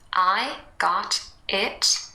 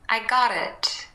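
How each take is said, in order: First: The T is a full, clearly released stop. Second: The T is a light flap joining the words.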